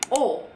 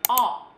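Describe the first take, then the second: First: The vowel is said with tightly rounded lips. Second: The vowel is said with an open mouth. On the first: "dia mulutnya harus bulat banget" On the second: "pada saat kita ngomong O itu mulutnya harus kebuka"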